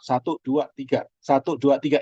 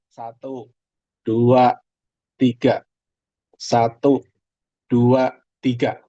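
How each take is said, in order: First: The counting is said fast. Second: The counting is said slowly.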